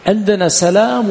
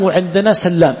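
First: سلام with a single, unstressed L, salām; سلام as sa-LAAM, short first syllable and one L; light lam. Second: سلام with a doubled L, sallām; سلام as sal-LAAM, first syllable closed; doubled lam. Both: Shown as a demonstration. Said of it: "أي بالتخفيف وبالتشديد".

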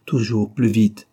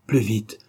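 First: "plus vite" louder and slower, pressing; urgent narrator insisting on "plus vite"; stress on plus vite. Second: Said in the usual way. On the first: A narrator's reading. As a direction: drive the words "plus vite" hard.

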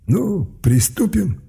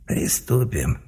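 First: High, very slow gloating mage; sinister torturer. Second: Soft snide inner voice; a mocking voice in his head. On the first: Acted. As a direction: savour the start of torture. Torturer mage starting work. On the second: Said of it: "согласился ехидный голос".

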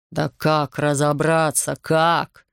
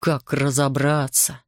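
First: Slow, emphatic, exasperated question; exasperated demand. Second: Slow, restrained, pointed question; menacing echo. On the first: Investigator slapping the desk, exasperated at Artur's reproach. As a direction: stretch it out, hitting the last word hard. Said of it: "припечатал ладонью к столу следователь". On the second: Artur echoes the investigator's words, coldly challenging. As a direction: throw the question back slowly, held in. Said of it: "сузил глаза Артур". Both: A narrator's reading.

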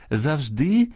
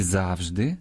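First: "завжди" stressed on the last syllable, завждИ. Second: "завжди" stressed on the first syllable, зАвжди. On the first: Host showing parallel stresses, "завжди" with final-syllable stress. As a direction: lean on the И of "завжди". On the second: Host showing parallel stresses, "завжди" with first-syllable stress. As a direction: lean on the А of "завжди". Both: Shown as a demonstration. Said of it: "подвійне або паралельне наголошування".

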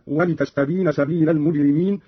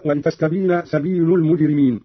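First: سبيل said "sabila", with an a ending; accusative lam. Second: Said in the usual way. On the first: Shown as a demonstration. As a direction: fatha on the final l of سبيل. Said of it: "بنصب اللام".

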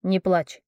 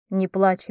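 First: Gentle comfort. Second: Tender comfort. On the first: Prince comforting crying girl. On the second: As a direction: hush her gently before the kiss. Prince comforting before kiss. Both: Acted.

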